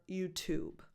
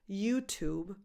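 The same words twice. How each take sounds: First: "YouTube" stressed on "Tube", falling at the end. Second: "YouTube" stressed on "You", rising at the end. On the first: Teacher offering second option, "YouTube" stressed on "Tube". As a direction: hit the second syllable of "YouTube". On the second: Teacher offering first option, "YouTube" stressed on "You". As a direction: hit the first syllable of "YouTube". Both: Shown as a demonstration. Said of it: "The stress can be on either syllable".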